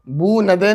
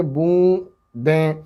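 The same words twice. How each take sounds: First: बू नदे with the n fully sounded; बू नदे said as if the n were a full letter; wrong reading. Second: बू दें with a nasal vowel and no full n; correct nasal reading. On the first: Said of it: "बू नदे नहीं पढ़ेंगे". (बू नदे, गलत उच्चारण) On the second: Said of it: "इसको पढ़ेंगे बू दें". (बूंदें, नून गुन्ना के साथ) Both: Shown as a demonstration.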